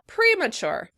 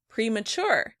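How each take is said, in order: First: The stress is on the first syllable. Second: The stress is on the second syllable. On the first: "In British English, the word would be stressed on the first syllable" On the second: "In American English, the word would be stressed on the second syllable"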